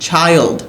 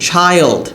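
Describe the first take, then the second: No difference in how they are said.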